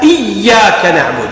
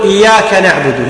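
First: Slow, long doubled Y in إياك; shadda on the ya. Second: Light single Y in إياك; eased, undoubled ya. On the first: Teacher corrects the imams' slip, doubled Y in إياك. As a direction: hold the Y of إياك firmly. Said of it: "لا". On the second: Teacher shows some imams' slip, light Y in إياك. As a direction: glide through إياك without doubling the Y. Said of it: "يمشون بالتسهيل". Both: Shown as a demonstration.

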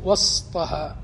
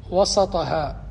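First: وسطها with no vowel after the s, was-ta-ha; sukun on seen. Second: وسطها with an open "a" after the s, wa-sa-ta-ha; fatha on seen. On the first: Teacher showing students the other vocalization, وسطها said wastaha with sukun. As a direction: close the seen straight onto the t in وسطها. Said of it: "ضبطه بالسكون". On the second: Teacher showing students the first vocalization, وسطها said wasataha with fatha. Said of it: "من ضبطه بفتح السين". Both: Shown as a demonstration.

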